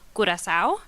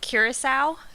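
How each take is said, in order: First: The name is said with a Spanish pronunciation. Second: The name is said with an American English pronunciation. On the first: "In Spanish" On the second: "how I would say it in English or in American English"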